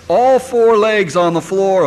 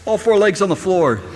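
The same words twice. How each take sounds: First: All four legs drawn out slowly and loud; slow insistence. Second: Said in the usual way. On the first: Retold or imitated. Parent insisting to child, slow loud emphasis. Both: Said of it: "what do we tell them?".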